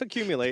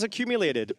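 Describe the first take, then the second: First: The word ends without any D sound. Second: The word ends with an added D sound. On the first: This is the actual name of the card. The speaker calls it right. "there's no D there" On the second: This is how most people say the name. The speaker calls it wrong. "I know everybody says accumulated"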